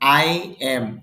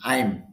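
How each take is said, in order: First: Two separate words, I and am. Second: One shortened syllable, I'm.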